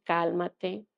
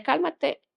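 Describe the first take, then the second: First: Said in the usual way. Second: Cálmate jumps high and firm, mimicking the nurse; nurse's firm calmate. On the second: Nurse ordering her patient, high and firm. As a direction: call out Cálmate sharply, pitched up. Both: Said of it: "pero la que me decía".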